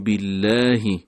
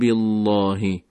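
First: The l sound is thin and light. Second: The l sound is thick and heavy. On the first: The speaker calls it right. "لام به صورت رقیق و نازک تلفظ میشه" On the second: The speaker calls it wrong. "نمیگیم بالله"

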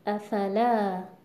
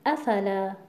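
First: The stress is on the last syllable. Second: The stress is on the first syllable. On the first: The speaker calls it right. "صحیحش اینه که بگیم افلا" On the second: The speaker calls it wrong. "اگر مثلا ما تأکید رو بر همزه بیاریم، بگیم افلا"

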